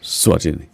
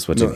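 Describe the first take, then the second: First: The name begins with an S sound. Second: The name begins with a vowel sound. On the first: The speaker calls it right. "you start with S, not E" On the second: The speaker calls it wrong. "but it's not pronounced"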